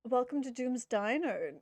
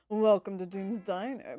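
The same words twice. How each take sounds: First: It is said in a normal voice. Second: It is said in a put-on character voice.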